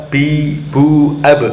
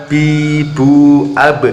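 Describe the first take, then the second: The two takes are said the same way.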